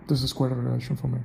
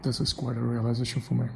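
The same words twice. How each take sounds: First: "realization" squeezed quickly to sound like "relation"; quick slurred pronunciation. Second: "realization" with all its syllables sounded out; careful full pronunciation. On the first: Speaker showing his preferred accent, "realization" clipped to "relation". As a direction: rush through and swallow the middle of "realization". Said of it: "Yeah, like this". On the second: Speaker testing an accent on himself, "realization" pronounced in full. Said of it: "I should not be pronouncing the word realization". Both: Shown as a demonstration.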